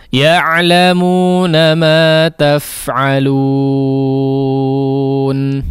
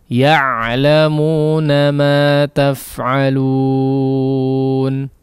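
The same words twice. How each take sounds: The two takes are said the same way.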